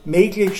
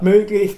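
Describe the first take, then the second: First: The first vowel is unrounded, like e. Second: The first vowel is rounded, like ö. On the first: This is the local dialect form. "möglich statt" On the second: This is the standard form. "statt möglich"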